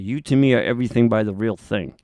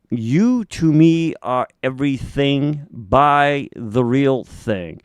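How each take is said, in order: First: The title is said more quickly. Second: The title is said at a normal speed.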